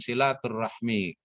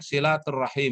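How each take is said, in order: First: The word ends with the sounds hmi. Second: The word ends with the sounds him. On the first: The speaker calls it wrong. "bukan silaturahmi" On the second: The speaker calls it right. "yang benar itu penyebutannya silaturahim"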